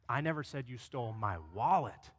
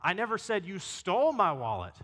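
First: The stress is on "wallet". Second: The stress is on "stole".

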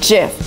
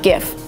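First: The word begins with a 'j' sound. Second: The word begins with a hard 'g' sound. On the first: The speaker calls it right. "So the right way to pronounce this word is GIF" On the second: The speaker calls it wrong. "not GIF"

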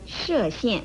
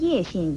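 First: The first syllable is pronounced shè. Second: The first syllable is pronounced yè. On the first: The speaker calls it right. "河南省的射县" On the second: The speaker calls it wrong. "很多人都把它错读成叶县"

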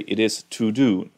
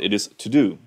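First: 'To' has a full 'oo' vowel. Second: 'To' has a reduced schwa vowel. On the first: The speaker calls it wrong. "We learned at school that you say" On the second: The speaker calls it right. "but it's not"

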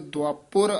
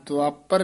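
First: The vowel after the p is u. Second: The vowel after the p is a. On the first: The speaker calls it right. "ਪੱਪੇ ਔਂਕੜ ਵੀ ਹੈ" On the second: The speaker calls it wrong. "ਦੁਆਪਰ ਨਹੀਂ ਕਹਿਣਾ"

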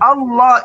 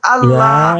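First: The word is pronounced the Arabic way. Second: The word is pronounced the Latin-letter way. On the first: "Allah itu lafal Arabnya" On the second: "Lafal Latinnya itu Allah"

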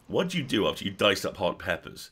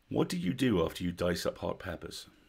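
First: It imitates the bad guy from Speed. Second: It is said in a normal voice.

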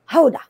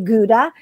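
First: The word begins with a throaty H-like sound. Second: The word begins with a hard G sound. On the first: The speaker calls it right. "when it's actually Hoda" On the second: The speaker calls it wrong. "we say Gouda"

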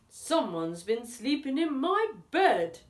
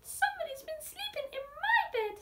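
First: It is said in a booming deep voice. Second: It is said in a squealing high voice.

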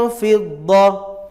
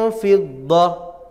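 Both takes have the same delivery.

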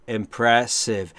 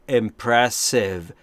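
No difference in how they are said.

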